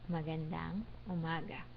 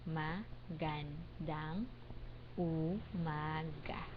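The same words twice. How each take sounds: First: It is said at a normal speaking pace. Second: It is said slowly and deliberately.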